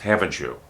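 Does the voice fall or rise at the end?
fall. The voice falls at the end of the tag. The asker already knows the answer. "My voice goes down"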